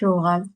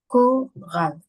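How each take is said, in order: First: The word begins with an sh sound. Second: The word begins with a k sound. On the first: The speaker calls it wrong. "On ne dit pas choral" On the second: The speaker calls it right. "on dit choral"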